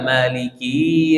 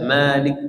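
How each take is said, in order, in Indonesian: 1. Kata ini berakhir dengan i yang dipanjangkan. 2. Kata ini berakhir tanpa vokal akhirnya. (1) "kasrannya berubah jadi huruf ya ... itu salah juga" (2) "Tidak boleh baca Malik Yaumiddin"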